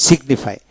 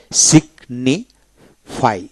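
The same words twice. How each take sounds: First: Said in the usual way. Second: সিগনিফাই drawn out very slowly, sig-ni-fy with the g sounded; teacher stretches সিগনিফাই syllable by syllable for learners; slow syllable demo. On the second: Shown as a demonstration. Teacher showing students the split syllables, very slow. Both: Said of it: "এটা তিনটা syllable".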